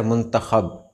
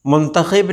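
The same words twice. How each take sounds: First: मुंतखब with short "a" after kh; correct pronunciation. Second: मुंतखब said with "i" after kh; wrong pronunciation. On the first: Teacher giving viewers the right word, correctly pronounced. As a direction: say "mun-ta-khab" for मुंतखब. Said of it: "सही लफ्ज़ है". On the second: Teacher showing viewers the common error, mispronounced. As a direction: say "mun-ta-khib" for मुंतखब. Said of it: "मुंतखब नहीं होता है". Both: Shown as a demonstration.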